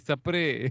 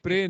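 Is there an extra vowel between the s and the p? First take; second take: yes; no. First: A short vowel separates the s and p. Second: The s and p are said together. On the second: "स्प्रे नहीं"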